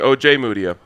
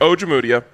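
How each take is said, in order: First: The J sound is hit hard and clear. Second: The J sound is soft and blended in. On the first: The speaker calls it right. "He's saying O J Mudia. He's correct" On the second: The speaker calls it wrong. "You're saying Ojemudia. ... You're wrong"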